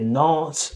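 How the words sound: It is said with an American accent. "I think in Americans you might hear not"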